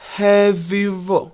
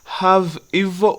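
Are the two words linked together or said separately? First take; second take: linked; separately. First: The V runs straight into evil. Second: The two words are said separately. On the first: "the V sound connects with the E in evil" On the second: "Instead of saying have evil"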